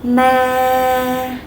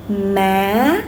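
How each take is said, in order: First: "Ma" held long on one level pitch; flat tone. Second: "Ma" gliding up at the end; rising tone. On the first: Teacher comparing with the no tone, flat level "Ma". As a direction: keep "Ma" flat with no rise. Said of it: "compare to the no tone". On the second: Teacher contrasting it with no tone, rising "Ma". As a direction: lift "Ma" like a question. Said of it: "so compare to the no tone". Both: Shown as a demonstration.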